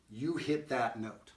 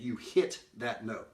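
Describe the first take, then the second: First: "hit" punched, slow and deliberate; stress on HIT. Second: "that" lifted and punched, slow; stress on THAT. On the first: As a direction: hit the word "hit" hard. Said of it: "Like in that sentence I said". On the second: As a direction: lean on the word "that". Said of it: "I don't know how I picked that syllable". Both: Shown as a demonstration.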